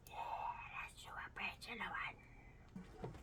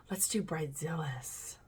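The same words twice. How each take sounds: First: Very soft whisper; hushed, barely audible decision. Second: Said in the usual way. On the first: Real, not acted. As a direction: whisper it as an aside. Whispered repeat to herself.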